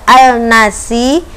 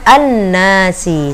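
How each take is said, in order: First: The L of the article is clearly pronounced. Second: The L merges into a doubled N sound. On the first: The speaker calls it wrong. "bukan dibaca al-nasi" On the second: The speaker calls it right. "tetapi dibaca an-nasi"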